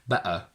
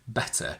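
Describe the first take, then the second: First: The middle t is a glottal stop. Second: The middle t is a clear t. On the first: "I would never say better" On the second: "I do pronounce all my T's, especially between vowels. I only say better"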